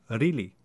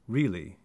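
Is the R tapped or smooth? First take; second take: tapped; smooth. First: The R is a quick retroflex tap. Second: The R is smooth and not tapped.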